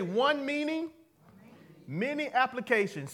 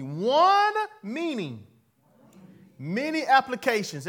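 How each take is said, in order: First: Said in the usual way. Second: ONE meaning drawn out loud and high; a slow, loud chant for the room to echo; slow emphatic slogan. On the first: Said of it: "Everybody say". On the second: Shown as a demonstration. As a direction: stretch out One and hit it hard, many applications. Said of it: "Everybody say this with me".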